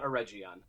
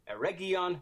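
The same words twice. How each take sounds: First: The G is pronounced soft, as in 'gem'. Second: The G is pronounced hard, as in 'go'. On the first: The speaker calls it wrong. "not Eregion" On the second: The speaker calls it right. "it is indeed pronounced Eregion with a hard G"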